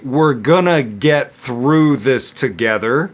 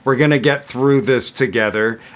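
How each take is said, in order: First: The sentence is spoken at a slow pace. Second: The sentence is spoken at a medium pace. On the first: "I'm going to say it slowly" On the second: "I'm going to say it at medium speed"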